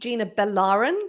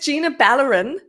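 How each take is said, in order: First: The surname is stressed on its second syllable. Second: The surname is not stressed on its second syllable. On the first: The speaker calls it wrong. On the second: The speaker calls it right.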